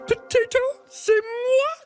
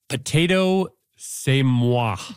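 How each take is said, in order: First: It is said in a Miss Piggy voice. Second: It is said in a normal voice.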